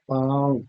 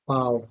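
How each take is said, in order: First: The vowel is nasalized through the nose. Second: The vowel is plain, without nasal sound.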